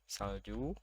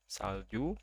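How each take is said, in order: No difference in how they are said.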